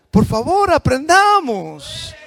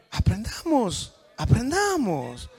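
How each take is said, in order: First: Louder, higher, drawn-out plea; loud pleading. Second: Said in the usual way. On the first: Real, not acted. Pastor begging the congregation to learn, loud drawn-out plea. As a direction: beg them to learn, stretching the word out. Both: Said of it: "pastor pleading with congregation".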